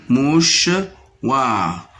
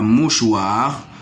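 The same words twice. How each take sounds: First: "Mouchoir" split as mouch-oir with a pause; syllable by syllable. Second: Said in the usual way. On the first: Shown as a demonstration. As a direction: lift the first half of "Mouchoir", then drop on the second. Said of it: "dans la deuxième syllabe". (« Mouchoir » découpé : mouch… oir)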